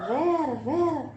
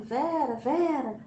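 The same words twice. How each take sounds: First: Drawn-out higher call, slow; calling Vera slowly while searching the empty house. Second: Calling out. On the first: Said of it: "E aí eu falava". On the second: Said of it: "adentrando e dizendo". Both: Retold or imitated.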